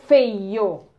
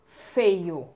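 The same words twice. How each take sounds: First: "feio" loud and stretched, f held into the vowels; sounded-out word. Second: Said in the usual way. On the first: Shown as a demonstration. Teacher blends the word for pupils, loud and drawn-out. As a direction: blend "feio" slowly, leaning on every sound. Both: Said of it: "É sempre o som".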